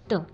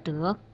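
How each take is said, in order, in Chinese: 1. 这个音节读轻声。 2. 这个音节读阳平。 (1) "美得让人窒息的得" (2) "患得患失的得"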